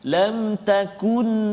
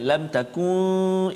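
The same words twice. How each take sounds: First: The n is said clearly and briefly. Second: The n is nasalized with a hum. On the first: The speaker calls it right. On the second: The speaker calls it wrong. "Jangan lam takun dengung, salah"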